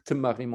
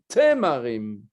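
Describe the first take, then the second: First: The T runs straight into the M. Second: A short vowel separates the T and M. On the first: The speaker calls it wrong. "on ne peut pas dire Tmarim" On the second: The speaker calls it right. "on doit dire Temarim"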